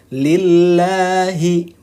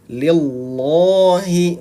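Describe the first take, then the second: First: The 'l' of Allah is light and thin. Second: The 'l' of Allah is heavy and thick. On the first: The speaker calls it right. "kalau tarkik ataupun kalau tipis itu dibacanya lillahi" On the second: The speaker calls it wrong. "bukan lillahi, bukan tebal"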